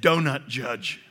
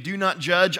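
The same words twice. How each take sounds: First: "donut judge", with "do not" run into "donut"; slip of the tongue. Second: Said in the usual way. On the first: Shown as a demonstration. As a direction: say "donut" like the pastry, then "judge". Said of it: "I said". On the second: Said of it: "instead of saying".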